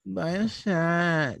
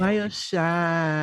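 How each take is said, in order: First: Drawn-out mock party girl; hammed-up party girl, stretched out; slow girly plea. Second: Drawn-out mock party girl; slow girly plea. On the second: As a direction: stretch it like a needy party girl. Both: Mocking girls asking for drinks.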